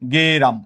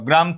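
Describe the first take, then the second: First: An extra e vowel separates g and r. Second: The g and r are joined with no vowel. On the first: "অতিরিক্ত এ আসছে" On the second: "একার নাই"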